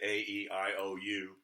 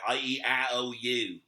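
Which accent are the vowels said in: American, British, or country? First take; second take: American; country. First: The vowels are said in a plain American accent. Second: The vowels are said in a rural country accent. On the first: "We say" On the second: "If you want to talk country"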